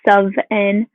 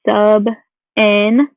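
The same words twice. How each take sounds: First: The word sub ends with a V sound. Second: The word sub ends with a B sound. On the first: "Sometimes it comes out with a V sound" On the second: "this is pronounced a sub n"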